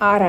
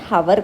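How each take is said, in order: First: The word begins directly with a vowel sound. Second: The word begins with an audible h sound. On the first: The speaker calls it right. "Pronounce చేసేటప్పుడు ఆర్ అంటాం" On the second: The speaker calls it wrong. "హవర్ కాదు"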